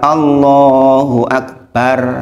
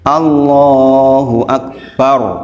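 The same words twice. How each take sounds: First: The r in Akbar is light and thin. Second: The r in Akbar is heavy and thick. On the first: The speaker calls it wrong. "jangan katakan Allahu Akbar, bar itu keliru" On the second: The speaker calls it right. "ro-nya tebal"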